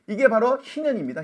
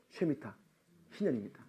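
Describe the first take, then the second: First: Said in the usual way. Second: 희년입니다 said low and much softer; hushed 희년입니다; quiet. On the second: Shown as a demonstration. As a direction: drop the voice on 희년입니다.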